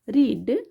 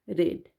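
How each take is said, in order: First: The vowel is long, like in 'reed'. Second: The vowel is short, like in 'red'. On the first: It is the base form of the verb. "रीड ना पढ़ के" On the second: It is the past form of the verb. "इसको हम रेड पढ़ते हैं"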